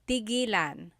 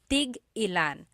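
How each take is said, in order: First: The word flows smoothly without a glottal stop. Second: A glottal stop breaks the word in the middle. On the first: It means to stop. "It's just one word" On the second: It asks how many of each. "you have to have that glottal stop"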